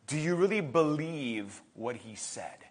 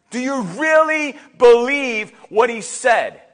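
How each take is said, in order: First: Very soft, low, searching; hushed question. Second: Slow, firm challenge on "really believe"; emphatic repeat. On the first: Preacher asks congregation whether they believe, hushed. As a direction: ask it quietly and earnestly. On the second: Preacher challenges congregation on "really believe", emphatic. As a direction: press "really believe" slowly and firmly. Same question repeated strongly. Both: Real, not acted.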